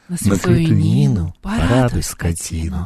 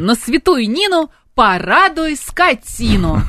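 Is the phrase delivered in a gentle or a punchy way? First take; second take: gentle; punchy. First: It is said more softly and gently. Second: It is said punchily, like an advertising slogan. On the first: "тут надо помягче" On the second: "Вот как-то вот так. / Рекламный слоган"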